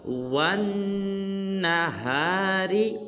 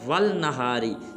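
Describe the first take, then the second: First: A doubled, nasalized 'n' follows 'wa'. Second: An 'l' sound is heard before the 'n'. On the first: The speaker calls it right. "नून मुशद्दद के साथ मिलाएंगे और गुन्ना भी करेंगे" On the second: The speaker calls it wrong. "बाज़ मुसलमान पढ़ देते हैं वल नहारी, ये बिल्कुल गलत है"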